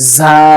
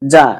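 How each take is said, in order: First: The consonant is a buzzing hissing sound. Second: The consonant is a plain j sound. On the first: The speaker calls it right. "ঝা শব্দ হবে স্যানসানাইয়া" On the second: The speaker calls it wrong. "এরকম যা হবে না"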